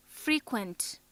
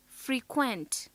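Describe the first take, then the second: First: FRE-quent, weight on the opening syllable; stress on first syllable. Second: Fre-QUENT, weight on the last syllable; stress on second syllable. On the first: Teacher shows the adjective frequent, first syllable stressed. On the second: Teacher shows the verb frequent, second syllable stressed. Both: Shown as a demonstration. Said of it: "Note how the stress on different syllables".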